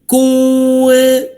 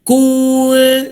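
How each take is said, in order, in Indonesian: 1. Dengung sengau diucapkan dengan bibir membulat, memonyong. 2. Dengung sengau diucapkan dengan bibir melebar, menyeringai.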